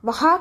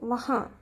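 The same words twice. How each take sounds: First: The final vowel is plain, without nasal sound. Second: The final vowel is nasal and said slowly. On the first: The speaker calls it wrong. "வஹா கிடையாது" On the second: The speaker calls it right. "நேசல் சவுண்டில் நிதானமாக பேசணும்"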